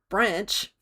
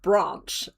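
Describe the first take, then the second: First: It is said with an Australian pronunciation. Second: It is said with a non-Australian pronunciation. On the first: "which is how Australians say the word branch" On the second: "corrects me every single time with branch"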